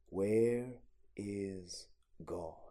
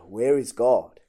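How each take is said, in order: First: It is asked at a normal, quieter volume. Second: It is asked a little louder.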